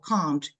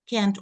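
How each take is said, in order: First: It is said in a British accent. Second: It is said in an American accent.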